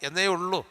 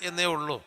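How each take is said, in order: No difference in how they are said.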